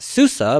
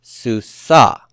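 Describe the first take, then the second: First: Susa stressed on the first syllable, SU-sa; SU-sa, susa with early stress; wrong stress, first syllable. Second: Susa with a loud, long final SA; su-SA, susa stressed late; stress on last syllable. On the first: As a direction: hit the SU of susa, light ending. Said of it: "it's not susa, but". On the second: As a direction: pull the stress of susa to the end. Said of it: "pull the stress to the end". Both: Shown as a demonstration.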